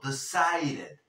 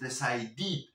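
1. La primera vocal es un sonido 'e'. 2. La primera vocal es un sonido 'i'. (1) "Esta E, en este caso, la pronunciamos como una E... una D antes, que la podemos pronunciar como R" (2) "lo que no vas a decir es decided, porque no es una I"

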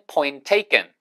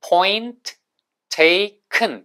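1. 이 구절은 빨리 말해요. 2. 이 구절은 보통 속도로 말해요.

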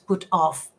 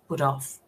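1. Las dos palabras se dicen por separado. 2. Las dos palabras van unidas. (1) "no es put off" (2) "se pronuncia junto"

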